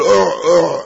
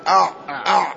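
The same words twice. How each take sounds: First: Short throaty "أع، أع" with a u vowel; imitated siwak gagging sound. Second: Throaty "أع، أع" said as aʕ, aʕ; fatha on the hamza. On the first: Teacher explains the sound of the siwak, throaty uʕ-uʕ imitation. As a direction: imitate a siwak sound, two tight uʕ bursts. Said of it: "يعني أن صوت السواك". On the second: Shown as a demonstration. Teacher shows the other narration, أع as aʕ with a fatha. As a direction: open أع on a short a, closed by a still ayn. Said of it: "بفتح الهمزة".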